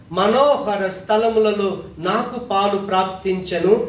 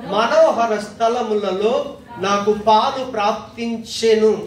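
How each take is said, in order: Both takes have the same delivery.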